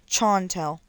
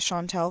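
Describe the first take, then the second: First: The name begins with a hard 'ch' sound. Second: The name begins with a soft 'sh' sound.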